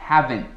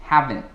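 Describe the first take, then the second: The two takes are said the same way.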